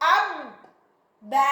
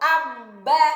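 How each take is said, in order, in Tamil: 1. வார்த்தை பகுதிகளுக்கு இடையில் இடைவெளி விட்டுப் பிரித்துச் சொல்லப்படுகிறது. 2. வார்த்தை ஒரே தொடர்ச்சியாகச் சொல்லப்படுகிறது. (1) "பிரிச்சு ஸ்டாப் பண்ணிடக்கூடாது" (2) "சேர்த்து தான் ஓதணும்"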